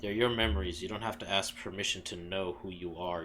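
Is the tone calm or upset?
calm. It is said in a calmer, less upset tone.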